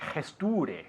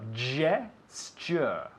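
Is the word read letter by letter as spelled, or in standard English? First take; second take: as spelled; standard English. First: The word is pronounced the way it looks. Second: The word has its standard English pronunciation. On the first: The speaker calls it wrong. "it looks like it's gesture" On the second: The speaker calls it right.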